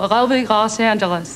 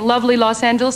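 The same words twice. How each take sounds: First: The L sounds are dropped or swallowed. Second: The L sounds are pronounced clearly. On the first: The speaker calls it wrong. "He has an L problem, which is you drop your L's" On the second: The speaker calls it right. "instead of like saying"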